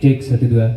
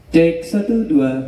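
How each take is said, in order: First: The voice sounds heavier, with more bass. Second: The voice sounds light, without heavy bass. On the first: "ini suara kita terdengar lebih berat" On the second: "Ini suaranya tidak ngebas"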